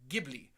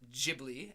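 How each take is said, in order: First: The word begins with a hard G sound. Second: The word begins with a soft G sound. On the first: The speaker calls it right. "if there's an H after the G, it's a hard G" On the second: The speaker calls it wrong. "as I have always pronounced it my entire life"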